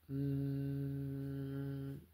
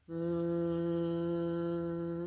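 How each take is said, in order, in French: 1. Le bourdonnement est plus grave, il résonne plus bas. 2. Le bourdonnement est plus aigu, il résonne derrière le nez. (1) "donc là on sent que ça vient d'ici" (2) "on monte d'une note en fait"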